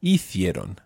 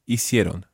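First: Hicieron with a lisped th for the c; Castilian pronunciation. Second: Hicieron with an s sound for the c; Latin American pronunciation. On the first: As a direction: say the c in Hicieron as English th. Teacher models Castilian, then Latin American. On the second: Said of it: "using Latin American pronunciation". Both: Shown as a demonstration.

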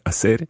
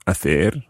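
First: Hacer with an "s" sound, a-SER; Argentinian pronunciation. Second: Hacer with a "th" sound, a-THER; Castilian pronunciation. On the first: Teacher showing Argentinian pronunciation, hacer said with s. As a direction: say the c in "hacer" as a plain s. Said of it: "in an Argentinian pronunciation". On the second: Teacher giving the standard infinitive, hacer said with th. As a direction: say the c in "hacer" like English th. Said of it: "or in an Argentinian pronunciation". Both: Shown as a demonstration.

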